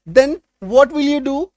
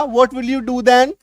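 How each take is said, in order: First: Very slow English question with a rise; slow read of an example question; slow model sentence. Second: Very slow question, rising at then; slow read of the alternative; slow alternate sentence. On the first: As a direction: dictate the question slowly. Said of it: "तो तुम क्या करोगे?". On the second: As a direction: say the other word order slowly. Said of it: "या". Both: Shown as a demonstration.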